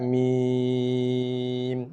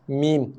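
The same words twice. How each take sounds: First: The vowel is drawn out for six beats. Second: The vowel is held short and plain. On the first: "Ada misal so dibaca dengan enam harakat" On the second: "Apa nama huruf?"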